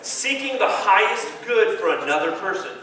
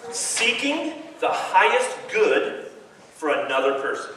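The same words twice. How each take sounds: First: Said in the usual way. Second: Slow, weighty words for them to remember; slow emphatic definition. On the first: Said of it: "here we are. Ready?". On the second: Shown as a demonstration. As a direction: lay it down slowly, word by word. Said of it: "I wanna give you a definition".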